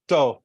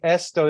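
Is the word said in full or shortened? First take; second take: shortened; full. First: The first syllable is dropped from the word. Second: The word is said with all its syllables. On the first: "they just say to" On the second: "instead of saying esto"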